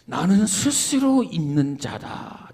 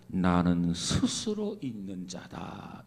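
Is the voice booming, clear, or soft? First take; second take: booming; soft. First: It is said in a huge, booming voice. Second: It is said in a soft, gentle voice.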